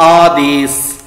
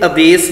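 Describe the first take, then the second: First: ਆਦੇਸ਼ drawn out slowly, aa-des; long first vowel. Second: ਆਦੇਸ਼ begun with short a, a-des; short first vowel. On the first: Teacher models the right reading, ਆਦੇਸ਼ as aa-des. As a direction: stretch the opening aa of ਆਦੇਸ਼, end on s. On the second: Teacher warns against this reading, ਆਦੇਸ਼ as a-des. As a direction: shorten the opening of ਆਦੇਸ਼, end on s. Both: Shown as a demonstration. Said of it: "ਇੱਥੇ ਆਦੇਸ਼ ਨਹੀਂ".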